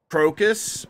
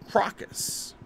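First: The O is said as a hard vowel. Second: The O is said as a soft vowel. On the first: "Is it a hard O?" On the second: "Or is it a soft O?"

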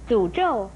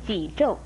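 First: The first syllable starts with a 'z' sound. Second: The first syllable starts with a 'j' sound. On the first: The speaker calls it right. "诅咒也不可以念成沮咒" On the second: The speaker calls it wrong. "不可以念成沮咒"

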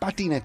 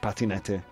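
First: The word sounds cute and childlike. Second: The word sounds gruff and manly. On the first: "I pronounce patinette like a five-year-old child" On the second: "How would a mustachioed man say it in Spanish?"

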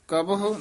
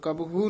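First: The word ends with a separate 'hu' syllable. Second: The final 'hu' is not sounded as a syllable. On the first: The speaker calls it right. "ਉਚਾਰਨ ਕਰਨਾ ਹਾਹੇ ਔਂਕਣ ਨਾਲ" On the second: The speaker calls it wrong. "ਕਬਹੁ ਨਹੀਂ ਕਹਿਣਾ"

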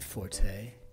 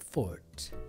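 First: The word is said with two syllables. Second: The word is said with one syllable. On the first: The speaker calls it wrong. "I do not say Forte" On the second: The speaker calls it right. "I say Fort"

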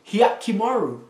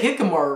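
First: The name begins with a 'hyah' sound. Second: The name begins with a plain 'hee' sound. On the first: The speaker calls it right. "That's not hard" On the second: The speaker calls it wrong. "I say it wrong"

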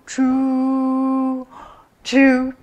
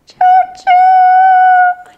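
First: It is said in a grandpa train voice. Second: It is said in a baby train voice.

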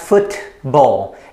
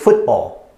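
First: The middle t is fully released. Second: The middle t becomes a throat stop. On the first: The speaker calls it wrong. "it's not football" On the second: The speaker calls it right. "it's football"

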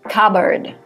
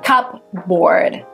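First: No 'p' sound is heard in the middle of the word. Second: A 'p' sound is heard in the middle of the word. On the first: The speaker calls it right. "it's cupboard" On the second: The speaker calls it wrong. "The P is silent, so it's not cupboard"

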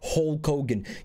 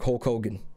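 First: The phrase is said at a slow pace. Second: The phrase is said at a quick pace. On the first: The speaker calls it wrong. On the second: The speaker calls it right.

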